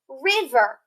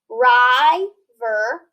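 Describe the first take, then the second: First: The first vowel is a short i sound. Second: The first vowel is a long i sound. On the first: The speaker calls it right. "So if I shorten that I" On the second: The speaker calls it wrong. "following the rules, have a long sound"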